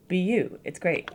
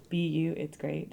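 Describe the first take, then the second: First: Said in the usual way. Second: Softer, read like a haiku line; quiet haiku reading; softer poetic take. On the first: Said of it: "Is this a haiku?". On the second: Shown as a demonstration. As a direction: let it fade like verse. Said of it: "That's not a haiku".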